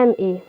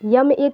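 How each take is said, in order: First: The first letter starts with a vowel sound. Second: The first letter starts with a y sound. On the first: The speaker calls it right. "हम पढ़ते हैं एम A" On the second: The speaker calls it wrong. "यम ए तो पढ़ते नहीं"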